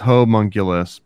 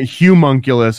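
First: The first syllable has a 'ho' vowel sound. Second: The first syllable has a 'hu' vowel sound. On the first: The speaker calls it right. "it's homunculus" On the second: The speaker calls it wrong. "It's not humunculus"

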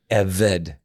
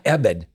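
First: The middle consonant is a V sound. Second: The middle consonant is a B sound.

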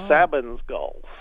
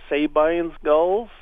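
First: The second syllable of the name sounds like 'bin'. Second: The second syllable of the name sounds like 'bean'. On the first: The speaker calls it right. "his was Sabin. So Sabin's gulls, I guess, is the correct way" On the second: The speaker calls it wrong. "I'd heard once about Sabine's River in Texas. So I figured it was spelled the same way"

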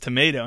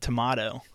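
First: Tomato is said with an American pronunciation. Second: Tomato is said with an Australian pronunciation. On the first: "everyone here in the States says tomato" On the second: "And then you said red tomato"

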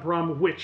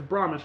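First: The w in the middle is clearly sounded. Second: The w in the middle is silent. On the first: The speaker calls it wrong. "not Bromwich. I could have dropped a hard W in there" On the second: The speaker calls it right. "I knew enough to know it's Bromwich"

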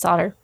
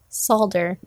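First: The L sound in the word is silent. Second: The L sound in the word is pronounced. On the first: "instead of" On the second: "I also say solder"

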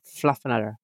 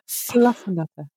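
First: It is said with an American accent. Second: It is said without an American accent.

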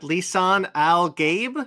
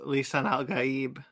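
First: The last word rhymes with 'babe'. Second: The last word is said with two syllables. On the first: "I said it Lisan Al Gabe, I guess" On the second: "For me, it was Lisan Al Gaib"

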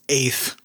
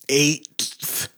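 First: No separate hard T is sounded before the TH. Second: A separate hard T is sounded before the TH. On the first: The speaker calls it right. "it's eighth" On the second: The speaker calls it wrong. "it's not eighth"

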